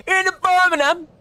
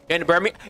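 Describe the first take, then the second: First: High, hammed-up Birmingham accent; badly faked Brummie, pitched way up; mock Birmingham accent. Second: Said in the usual way. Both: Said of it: "I don't know the accents".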